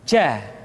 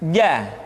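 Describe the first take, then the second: First: The consonant is voiced with breath escaping audibly. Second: The consonant is voiced with no breath escaping. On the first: The speaker calls it wrong. "ada nafas yang mengalir" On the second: The speaker calls it right. "Dikeluarkan dengan menyentuhkan tengah-tengah lidah dengan langit-langit"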